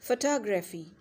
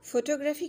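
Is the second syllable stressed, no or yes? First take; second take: yes; no. First: The stress is on the second syllable. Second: The stress is not on the second syllable. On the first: The speaker calls it right. "टॉ पे हमने stress देना है" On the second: The speaker calls it wrong. "Photography कहते हैं ना आप लोग ये"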